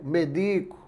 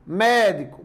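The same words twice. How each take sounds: First: Medico, stressed on DI; stress on middle syllable. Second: Médico, stressed on an open MÉ; stress on first syllable. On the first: Teacher showing shifted stress changes meaning, stress on middle syllable. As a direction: lean on the i, me-DI-co. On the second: Teacher showing shifted stress changes meaning, stress on first syllable. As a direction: punch MÉ at the start of Médico. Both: Shown as a demonstration. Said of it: "Se eu deslocar a sílaba tônica".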